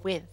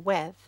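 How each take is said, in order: First: The vowel sounds like a short 'i'. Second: The vowel sounds closer to an 'e'.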